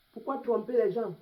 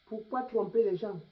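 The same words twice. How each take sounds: The two takes are said the same way.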